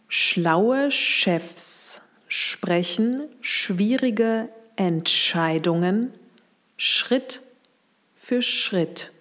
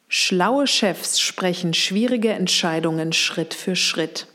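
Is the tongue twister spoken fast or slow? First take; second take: slow; fast. First: The sentence is spoken slowly. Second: The sentence is spoken faster. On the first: "Nochmal langsam" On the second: "Und jetzt etwas schneller"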